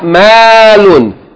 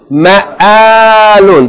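First: The word flows without a glottal break. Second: The word has a glottal break inside it. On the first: The speaker calls it wrong. "not ma'alun" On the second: The speaker calls it right. "There's a break"

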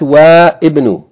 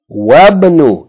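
First: The i of ibn is pronounced, giving wa-ibn. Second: The i of ibn is dropped, giving wabn. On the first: The speaker calls it wrong. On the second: The speaker calls it right. "If anything is before it, then you don't pronounce its vowel"

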